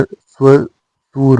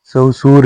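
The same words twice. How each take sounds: First: स्वसुर drawn out in two parts; correct sva- opening. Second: ससुर with first syllable rounded to sau; wrong sau-sur form. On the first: Teacher giving learners the correction, स्वसुर slowly as sva-sur. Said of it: "ससुर नहीं होता". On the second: Teacher showing learners the mistake, ससुर as sau-sur. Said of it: "स्वसुर होता है". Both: Shown as a demonstration.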